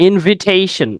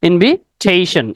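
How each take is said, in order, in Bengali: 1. দ্বিতীয় শব্দাংশে ছোট 'i' স্বর আছে। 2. দ্বিতীয় শব্দাংশে ছোট 'i' স্বর আছে।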